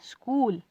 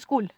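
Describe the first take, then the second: First: The vowel in school is drawn out long. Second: The vowel in school is short. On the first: The speaker calls it right. "हम बोलते हैं स्कूल" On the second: The speaker calls it wrong. "वैसे तो नहीं बोलते स्कूल"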